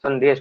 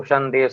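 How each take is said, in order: First: Said in the usual way. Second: First sound of संदेश turned into "sh"; स की जगह श. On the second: Shown as a demonstration. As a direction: open संदेश with "sh" instead of "s". (संदेश के शुरू में श की ध्वनि) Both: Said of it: "स को श बोल देते हैं".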